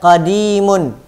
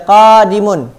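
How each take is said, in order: First: The second syllable has the long vowel. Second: The first syllable has the long vowel. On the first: Something old or past. The speaker calls it right. "tapi baca qadimun" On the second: Something that is coming. The speaker calls it wrong. "Jangan dibaca qadimun ... yang dipanjangkan adalah qafnya"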